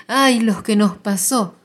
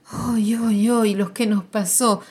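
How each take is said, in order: First: Louder, slower cry of grief; loud slow wail. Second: Grandmother's wail. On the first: Grandmother crying out to the family, slow loud wail. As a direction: stretch the ay into a loud lament. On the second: Grandmother arriving in the lift, half-raised wail. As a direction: lament rising a bit higher and louder. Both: Acted. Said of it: "grita muy fuerte".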